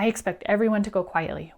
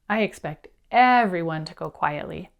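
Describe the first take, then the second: First: It is said quickly without pausing. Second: It is said slowly with pauses.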